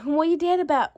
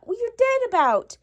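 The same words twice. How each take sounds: First: Said in the usual way. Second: Higher pitched, pushing on "dead"; insistent repeat. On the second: Real, not acted. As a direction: press hard on "dead", pitch up. Mom repeats question more insistently.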